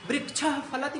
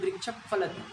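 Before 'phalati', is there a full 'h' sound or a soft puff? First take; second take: full h; soft puff. First: A full 'h' sound comes before 'phalati'. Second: A soft lip puff comes before 'phalati'. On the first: The speaker calls it wrong. "वृक्ष फलति नहीं कर सकते" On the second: The speaker calls it right. "उपधमानी के रूप में बदल देंगे तो कहेंगे"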